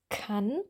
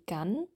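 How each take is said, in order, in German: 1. Der erste Konsonant ist ein stimmloses k. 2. Der erste Konsonant ist ein stimmhaftes g. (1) "dass es stimmlos ist" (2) "das klang eher wie gan"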